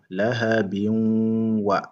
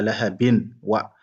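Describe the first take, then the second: First: The n blends nasally into the w. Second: The n is kept apart from the w. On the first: The speaker calls it right. "Et on fait la liaison" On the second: The speaker calls it wrong. "On dit pas lahabin wa"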